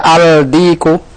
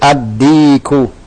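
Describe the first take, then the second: First: The article keeps a clear l, sounding 'al'. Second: The article blends into the d, sounding 'ad'. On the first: The speaker calls it wrong. "Salah kalau antum baca al-diku" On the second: The speaker calls it right. "As-sahih ad-diku"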